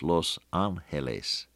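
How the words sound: The name is said with Spanish sounds. The speaker calls it right. "if you give it the right Spanish pronunciation"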